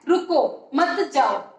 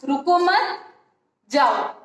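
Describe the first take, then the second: First: There is a pause right after 'ruko'. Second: There is a pause right after 'mat'. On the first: "रुको के बाद मैंने विराम चिन्ह लगाया है" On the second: "विराम चिन्ह का जो स्थान बदल दिया है"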